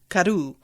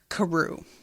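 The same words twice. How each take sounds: First: The middle consonant sounds almost like a D. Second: The middle consonant sounds like an R. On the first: "they say it with a D almost" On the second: "I've been calling the duck Karoo"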